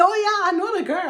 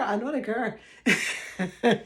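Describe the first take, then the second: First: High, fast imitation of someone claiming to know her; tossing off a quick, eager claim; mock bragging acquaintance. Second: Slow, laughing echo of the claim; laughing repeat. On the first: Viewers in groups telling friends they know her, high and fast. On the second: Retold or imitated. Repeating the viewers' claim to her audience, laughing slowly. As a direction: let it dissolve into a laugh. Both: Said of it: "And people were saying".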